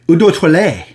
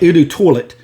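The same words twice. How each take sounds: First: It is said with a French-style pronunciation. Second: It is said with an American Southern pronunciation.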